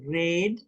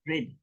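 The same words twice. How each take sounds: First: The vowel is full and longer. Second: The vowel is clipped and very short. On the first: The speaker calls it wrong. "It's not red" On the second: The speaker calls it right. "it's red. It's shorter"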